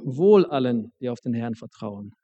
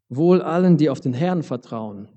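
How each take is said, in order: First: It is stressed to sound like a promise. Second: It is stressed to sound like a warning.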